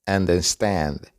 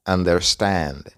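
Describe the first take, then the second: No difference in how they are said.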